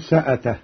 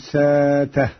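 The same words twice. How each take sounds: First: A glottal stop is pronounced after the s. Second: A long vowel replaces the glottal stop.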